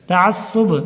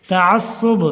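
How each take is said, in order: Both takes have the same delivery.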